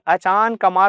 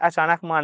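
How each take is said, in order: First: The break falls after 'achaan', before 'kamaar'. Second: The break falls after 'achaanak', before 'maar'. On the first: The speaker calls it right. "अचान कमार होता है" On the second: The speaker calls it wrong. "अचानक मार नहीं होता"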